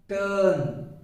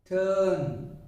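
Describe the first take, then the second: The two takes are said the same way.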